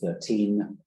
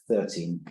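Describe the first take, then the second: First: The stress is on the second syllable. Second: The stress is on the first syllable. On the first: "we often cast the stress back one syllable" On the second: "a trochee"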